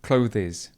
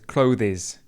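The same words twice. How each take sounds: The two takes are said the same way.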